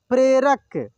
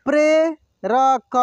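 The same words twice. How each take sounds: First: Said in the usual way. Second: प्रेरक drawn out slowly, syllable by syllable; slow sounding out. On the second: Shown as a demonstration. Teacher slowly sounds out प्रेरक for students. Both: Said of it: "एक एक मात्रा को अलग अलग करके".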